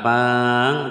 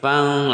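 First: The vowel is drawn out long. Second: The vowel is short, going straight into nasal. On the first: The speaker calls it wrong. "bukan fang" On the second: The speaker calls it right. "tapi fang langsung mad tabi'inya hilang"

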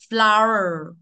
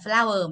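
First: The vowel is longer and deeper. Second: The vowel is short and shallow. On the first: The speaker calls it right. "mà đọc là" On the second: The speaker calls it wrong. "không phải là"

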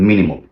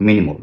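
Both takes have the same delivery.

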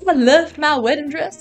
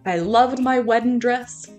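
First: It is said in a put-on Southern accent. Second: It is said in the speaker's ordinary accent.

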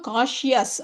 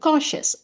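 First: The middle 'ya' sound is said strongly. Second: The middle 'ya' sound is light, nearly silent. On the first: The speaker calls it wrong. "இந்த யா ரொம்ப காஷியஸ் அப்படியெல்லாம் சொல்லக்கூடாது" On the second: The speaker calls it right. "Almost அது லைட்டாக இருக்கணும், அப்படியே சைலண்ட்டாக மாதிரி"

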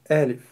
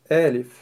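No difference in how they are said.

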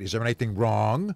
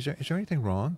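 First: The question sounds harsh and accusing. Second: The question sounds soft and caring. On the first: The listener feels discouraged from answering. "I don't want to say a darn thing now with that tone of voice" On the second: The listener feels encouraged to answer. "Maybe I'll be more encouraged"

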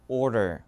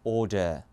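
First: The r sounds are pronounced. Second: The r sounds are dropped. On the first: "미국 발음 들어보실래요?" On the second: "영국은요?"

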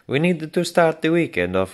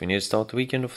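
First: It is read in a put-on foreign accent. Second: It is read in the speaker's normal accent.

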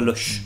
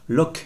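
First: The word ends with a soft 'sh' sound. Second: The word ends with a hard 'k' sound. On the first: The speaker calls it wrong. "et non pas Loche" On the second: The speaker calls it right. "à partir de maintenant, Locke"

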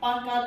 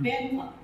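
First: The first vowel sounds like the 'a' in 'pan'. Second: The first vowel sounds like the 'e' in 'pen'. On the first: The speaker calls it wrong. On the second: The speaker calls it right.

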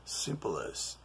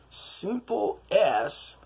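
First: The two words are run together into one. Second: The two words are said separately.

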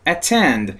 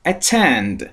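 No difference in how they are said.

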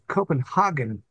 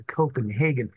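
First: It is said in a German-style pronunciation. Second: It is said in a non-German pronunciation. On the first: This is how Germans say it. The speaker calls it wrong. "Copenhagen is how the Germans pronounce it" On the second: This is the preferred way to say it. The speaker calls it right. "stressed that you should say Copenhagen"

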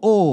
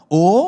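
First: The pitch falls on the vowel. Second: The pitch rises on the vowel. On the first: "Tapi kalau falling" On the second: "so itu adalah rising"

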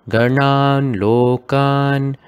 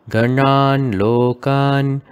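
No difference in how they are said.

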